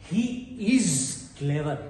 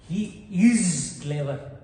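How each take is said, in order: No difference in how they are said.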